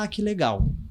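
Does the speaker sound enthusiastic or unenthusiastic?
enthusiastic. It is said with genuine enthusiasm. The speaker really likes it.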